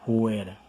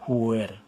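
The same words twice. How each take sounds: The two takes are said the same way.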